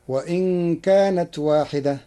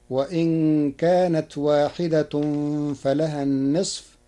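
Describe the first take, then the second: First: واحدة ending in the accusative, waahidatan; Hafs reading. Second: واحدة ending in the nominative, waahidatun. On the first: Teacher quoting the usual reading of واحدة, accusative. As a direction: close واحدة with the -a case ending. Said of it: "قرأ ورش كلمة واحدة". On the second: Teacher showing Warsh's nominative واحدة. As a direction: close واحدة with the -u case ending. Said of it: "بالرفع". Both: Shown as a demonstration.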